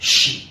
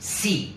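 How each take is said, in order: First: The word begins with an sh sound. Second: The word begins with a plain s sound. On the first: The speaker calls it right. "But શી" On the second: The speaker calls it wrong. "It is not સી"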